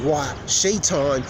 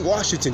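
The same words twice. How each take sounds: First: "Washington" spelled out slowly, each syllable drawn out; deliberate slow pronunciation. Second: Said in the usual way. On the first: Shown as a demonstration. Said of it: "I say Washington". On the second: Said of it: "I didn't say Washington".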